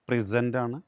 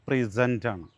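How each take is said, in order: Both takes have the same delivery.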